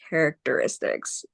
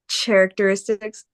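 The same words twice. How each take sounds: First: The word begins with a k sound. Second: The word begins with a ch sound. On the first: The speaker calls it right. "it's just going to make the normal C sound" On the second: The speaker calls it wrong. "So not characteristics"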